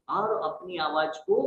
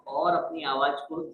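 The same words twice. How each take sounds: First: Higher, pushed-up voice; raised voice. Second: Said in the usual way. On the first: Shown as a demonstration. Trainer showing how adults talk when children don't listen, raised voice. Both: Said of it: "बड़ा करते हैं".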